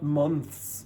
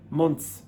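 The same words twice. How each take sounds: First: The TH is said as a full TH. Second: The TH sounds more like a T. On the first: The speaker calls it wrong. "not months" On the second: The speaker calls it right. "it's pronounced more like t"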